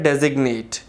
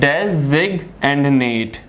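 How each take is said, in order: First: Said in the usual way. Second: Designate very slowly as "des, ig, and nate"; teacher sounding out designate piece by piece; syllable by syllable. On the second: Shown as a demonstration. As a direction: break designate into three separate parts. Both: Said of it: "third syllable".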